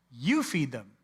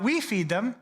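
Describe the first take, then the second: First: "You" weighted and falling; "You feed them" with a firm, falling "You"; stress on YOU. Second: "we" lifted high and louder; "we feed them" with a high, rising "we"; stress on WE. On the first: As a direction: lean on "You" as the one who must act. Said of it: "Not "we feed them," you feed them". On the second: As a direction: ask it, putting the weight on "we". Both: Shown as a demonstration.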